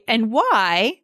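The voice falls at the end. "I could say"

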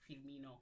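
The name is said in a Brazilian accent.

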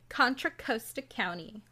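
It is said in an exaggerated Valley Girl accent. The speaker calls it wrong. "In the Valley Girl accent"

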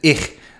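The word ends in a soft hissing sound. This is the usual way to say it. "Is what you'll typically say"

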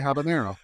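The word is pronounced with English sounds. "for all the gringos out there, I say habanero"

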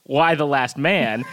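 It is said like a question, rising at the end. It sounds like asking why about the last man. The speaker calls it wrong. "I don't think that's the correct inflection. I don't think it's"

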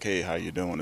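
It sounds like a casual, surface-level greeting.

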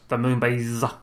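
It is said in a Cyberman voice.

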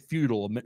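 It is pronounced the American way. "Americans say futile"

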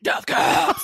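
It is said in a growling death-metal voice.

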